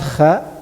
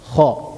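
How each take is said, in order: First: The kha sound is light and thin. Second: The kha sound is heavy and full. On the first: The speaker calls it wrong. "Not kha" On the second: The speaker calls it right. "Kha is heavy"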